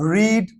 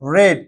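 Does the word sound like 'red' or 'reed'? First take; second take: reed; red. First: The vowel is long, like 'reed'. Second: The vowel is short, like 'red'. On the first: It is the present form of the verb. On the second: It is the past form of the verb. "এটার উচ্চারণটা কিন্তু change হয়ে যাবে"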